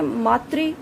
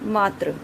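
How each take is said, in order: First: The word ends with a 'tri' sound. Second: The word ends with a 'tra' sound. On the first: The speaker calls it right. "शुद्ध शब्द ये होते हैं मातृ" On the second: The speaker calls it wrong. "जो कि गलत है"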